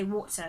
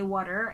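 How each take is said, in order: First: British accent, ending in a schwa without R. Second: American accent, with the final R pronounced.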